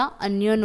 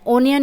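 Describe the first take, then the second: First: "अनियन" said with a short a; right a sound. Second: "ओनियन" said with o as in oh; wrong o sound. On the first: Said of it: "अनियन होता है". ("अनियन" को अ से बोलना) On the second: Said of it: "ओनियन नहीं होता". ("ओनियन" को ओ से बोलना) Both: Shown as a demonstration.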